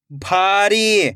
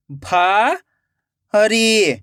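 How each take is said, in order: First: भारी joined as one slow word; blended word. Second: भारी split into भा, long pause, री; rising भा, then falling री; syllable by syllable. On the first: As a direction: read भारी whole, falling at the end. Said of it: "खींच के पढ़ना है". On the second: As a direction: sound out भारी very slowly in two parts. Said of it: "एक एक अक्षर का उच्चारण करना है". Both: Shown as a demonstration.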